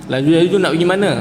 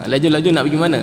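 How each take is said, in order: Both takes have the same delivery.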